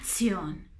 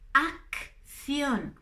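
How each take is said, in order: First: The double c is said as one sound. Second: The double c is said as two sounds. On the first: The speaker calls it wrong. "No es acción" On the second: The speaker calls it right. "tienen dos sonidos"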